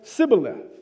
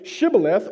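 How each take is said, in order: First: The word begins with an s sound. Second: The word begins with an sh sound. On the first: The speaker is an outsider. The speaker calls it wrong. "or do you say Sibboleth?" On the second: The speaker belongs to the group. The speaker calls it right. "Do you say it correctly"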